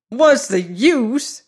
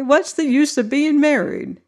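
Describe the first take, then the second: First: Put-on slow, higher old man's scornful echo; an old man sneering the question back, drawn out. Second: Said in the usual way. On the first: A narrator's reading. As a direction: toss the words back with scorn. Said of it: "echoed the bridegroom with scorn". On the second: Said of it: "he exclaimed".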